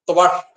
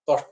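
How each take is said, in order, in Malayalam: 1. ആദ്യത്തെ അക്ഷരം 'tva' സംയുക്തമാണ്. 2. ആദ്യത്തെ അക്ഷരം ലളിതമായ 'to' ശബ്ദമാണ്. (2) "തൊഷ്ട അല്ല"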